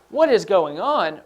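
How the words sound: It is said with strong, exclaiming emotion.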